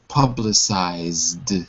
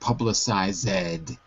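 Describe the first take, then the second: First: The ending is a plain d sound. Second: The ending is said as an extra syllable. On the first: The speaker calls it right. "it will always be pronounced like a d" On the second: The speaker calls it wrong. "It's very easy to say ed, you know, at the end"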